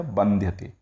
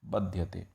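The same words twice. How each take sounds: First: बंध्यते with the n sounded before dhy; expected nasal form. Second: बध्यते with no n before dhy; nasal dropped. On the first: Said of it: "बनना क्या चाहिए था". (बंध्यते, न् की ध्वनि के साथ) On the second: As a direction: say बध्यते without the nasal sound. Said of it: "लेकिन बना क्या". (बध्यते, न् की ध्वनि हटाकर) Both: Shown as a demonstration.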